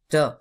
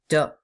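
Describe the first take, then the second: No difference in how they are said.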